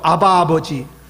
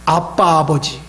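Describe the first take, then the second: First: The middle consonant of the first word is soft. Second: The middle consonant of the first word is tense.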